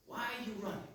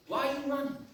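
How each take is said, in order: First: Softer, hushed voicing of the lady's question. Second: Said in the usual way. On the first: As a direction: ask it softly, almost to yourself.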